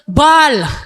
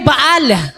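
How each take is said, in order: First: It is said as one syllable, like 'ball'. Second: It is said with two syllables, ba-al. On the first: "magtutunog ball" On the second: "sa Tagalog ay Baal"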